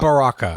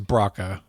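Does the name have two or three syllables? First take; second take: three; two. First: The name is said with three syllables. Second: The name is said with two syllables. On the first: The speaker calls it wrong. "I don't think it's Baraka" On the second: The speaker calls it right. "I think it's Braca"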